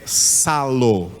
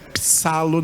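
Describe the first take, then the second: First: The word begins with an s sound. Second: The word begins with a p sound. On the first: The speaker calls it right. "Esse P aí é mudo, então você não pronuncia esse P. É salo" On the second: The speaker calls it wrong. "Não é psalo não"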